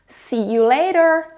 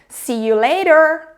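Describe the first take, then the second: The two takes are said the same way.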